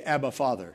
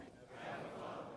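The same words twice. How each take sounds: First: Said in the usual way. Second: Breathy whispered Abba, Father; barely a breath, as if praying inside; whispered prayer. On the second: Shown as a demonstration. Repeated softly after calling it out.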